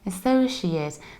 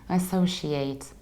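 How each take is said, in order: First: The final syllable is reduced, like the noun. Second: The final syllable is full, like the verb. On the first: The speaker calls it right. "it's a noun. So we need to say associate" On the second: The speaker calls it wrong. "We don't say associate or associate because it's not a verb"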